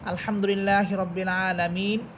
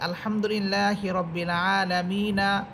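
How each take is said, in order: First: The last word ends on a bare consonant. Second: The last word ends with an added vowel. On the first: "এভাবে আমরা পড়ি" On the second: "অন্য জায়গায় এভাবে অনেকে পড়ে"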